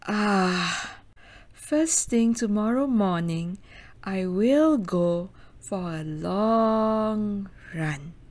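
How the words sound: It sounds resigned and full of dread.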